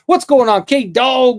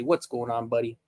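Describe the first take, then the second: First: Loud, high burst of delighted hello; light up and call out the greeting; excited greeting. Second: Softer, lower, gentle hello; soft greeting. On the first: Greeting K Dog with a loud, high excited hello. Greeting a pet or kid arriving. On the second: Quietly greeting the buddy with a gentle, tender hello. Greeting the same arrival softly. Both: Real, not acted.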